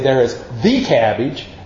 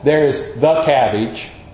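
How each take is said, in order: First: The word 'the' is strongly emphasized. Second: The word 'the' is light and unstressed. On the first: It means one particular cabbage. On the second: It just points out some cabbage.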